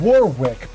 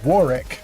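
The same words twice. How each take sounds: First: The name is read just as it is spelled. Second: The name is said the way locals say it. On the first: "It's spelled Warwick" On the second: "but they pronounce it Warwick"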